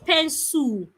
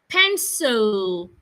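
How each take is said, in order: First: The final L sound is weak or unclear. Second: The final L sound is clearly formed. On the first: The speaker calls it wrong. "Not pencil" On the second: The speaker calls it right. "make sure the tip of your tongue touches the upper part of your lip. L"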